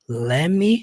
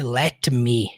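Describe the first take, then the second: First: The two words run together as one contracted word. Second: The two words are said fully and separately. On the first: "essa contração let me" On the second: "ao invés de"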